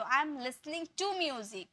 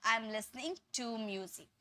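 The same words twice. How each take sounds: First: Slow careful model sentence; teacher demo, each word spaced out; slow correct model. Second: Slow, soft model sentence; slow correct model. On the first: Teacher repeats the correct sentence slowly for the class. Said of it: "तो". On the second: Teacher shows students what to say from now on. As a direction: set it out slowly as the right way. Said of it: "अब से आपको क्या बोलना है". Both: Shown as a demonstration.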